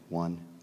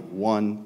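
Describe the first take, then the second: First: The count is spoken very softly. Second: The count is spoken loudly.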